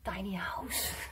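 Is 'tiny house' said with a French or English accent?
English. It is said with an English accent. The listener finally understood it.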